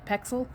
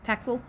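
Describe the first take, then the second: First: The first syllable sounds like 'pecks'. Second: The first syllable sounds like 'packs'. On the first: The speaker calls it right. "It's P E X" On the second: The speaker calls it wrong. "I actually say P A X, so I say it wrong"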